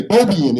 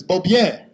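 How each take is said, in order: First: Beaubien said the Detroit way, BOH-bee-un; local pronunciation. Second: Beaubien said the French way, boh-BYEN with a nasal end; French pronunciation. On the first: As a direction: give Beaubien the hometown Detroit reading. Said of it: "we say Beaubien in the city of Detroit". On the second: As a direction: give Beaubien its original French sound. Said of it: "but it's Beaubien". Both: Shown as a demonstration.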